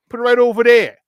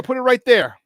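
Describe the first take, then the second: First: Put-on thick Chicago accent, a bit louder; proud local Chicago twang. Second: Said in the usual way. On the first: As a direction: lean into the Chicago vowels. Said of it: "my Chicago accent".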